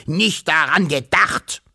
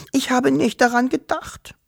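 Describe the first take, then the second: First: Grumpy, slow echo in disbelief; grunting. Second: Very high tearful little voice; acted child-like crying voice; sobbing. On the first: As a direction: grunt it back scornfully, drawn out. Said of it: "grunzte der Wawuschelonkel". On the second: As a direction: sob it out high and small. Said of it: "schluchzte sie". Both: A narrator's reading.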